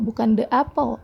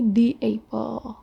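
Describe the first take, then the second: First: The article sounds like 'thuh'. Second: The article sounds like 'thee'. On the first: The speaker calls it wrong. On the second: The speaker calls it right. "tapi the apple"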